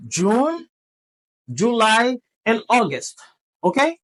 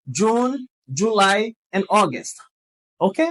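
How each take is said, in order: Both takes have the same delivery.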